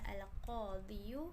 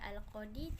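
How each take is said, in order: First: The word ends with an added 'yu' sound. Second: The word ends on a long 'ee' vowel. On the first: The speaker calls it wrong. "tidak dibaca al-qadiyu" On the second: The speaker calls it right. "tetap dibaca al-qadi"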